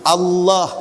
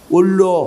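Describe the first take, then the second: First: The word is pronounced clearly and normally. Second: The word is pronounced with a stiff, slurred tongue. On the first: This is how most people say it. "Tengok tengok" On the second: This is how a person with a stiff tongue says it. "dia bunyi lagu tu. Dia tak boleh, dia lidah keras"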